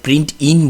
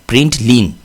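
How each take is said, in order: First: The second syllable begins with a vowel. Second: The second syllable begins with an L sound. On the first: The speaker calls it wrong. "উচ্চারণের সময় অনেক সময় ভুল হয়, আমরা প্রিন্ট ইন বলি" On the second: The speaker calls it right. "এটা হচ্ছে এল এন, প্রিন্ট লিন"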